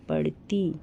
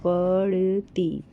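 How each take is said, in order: First: Said in the usual way. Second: पढ़ती said very slowly, syllable by syllable; teacher sounding out पढ़ती for children. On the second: Shown as a demonstration. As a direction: stretch पढ़ती out so each sound is heard. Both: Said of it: "जैसे कि ये".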